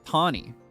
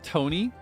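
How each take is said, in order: First: The name is said in a British-sounding way. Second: The name is said in a French-sounding way. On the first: The name comes from a British-themed region. "she's British. So they'd probably pronounce the name like Tawny" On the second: The name comes from a French-themed region. "it's gonna sound like French"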